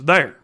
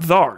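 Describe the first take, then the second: First: The vowel is like in 'care'. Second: The vowel is open, like in 'car'. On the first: The speaker calls it right. "it's there" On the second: The speaker calls it wrong. "it's not thar"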